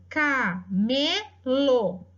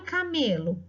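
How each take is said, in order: First: Camelo stretched very slowly, syllable by syllable; slowly sounded out. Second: Said in the usual way. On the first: Shown as a demonstration. Teacher sounding out camelo very slowly for the class. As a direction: draw out camelo for the class to hear each syllable.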